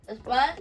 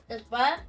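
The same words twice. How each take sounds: Both takes have the same delivery.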